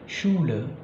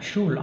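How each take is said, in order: First: The final e sound is clearly pronounced. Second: The final e sound is left silent. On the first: The speaker calls it right. "Tetap dilafalkan E-nya menjadi Schule" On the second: The speaker calls it wrong. "Jadi tidak dilafalkan Schule"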